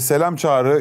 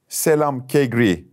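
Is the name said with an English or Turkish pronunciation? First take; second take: Turkish; English. First: The name is said with Turkish pronunciation. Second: The name is said with English pronunciation.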